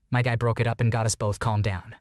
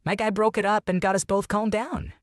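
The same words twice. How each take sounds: First: Said in the usual way. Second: High-pitched character quote; veteran's quoted line. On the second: A narrator's reading. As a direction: read it as a quote, pitched well up. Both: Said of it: "Vietnam said".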